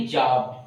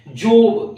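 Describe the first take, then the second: First: जॉब with an open "aa" vowel, like "jaab"; जॉब said as "jaab", not "jobe"; correct pronunciation demo. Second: जॉब with a long round O, like "jobe"; जॉब mispronounced with a full "oh" vowel; wrong pronunciation demo. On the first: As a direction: say जॉब with O opened to आ. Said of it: "बोलेंगे जॉब". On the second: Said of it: "ये नहीं बोलेंगे". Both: Shown as a demonstration.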